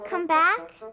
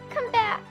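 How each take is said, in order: First: It is said as a calm suggestion. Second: It is said in a crying voice.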